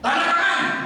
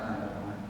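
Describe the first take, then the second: First: It is said loudly and forcefully. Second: It is said softly and quietly. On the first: It would anger the superior in an office. The speaker calls it wrong. "Justru kalau keras dimarah" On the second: It shows proper respect to a superior in an office. The speaker calls it right. "suaranya harus pelan"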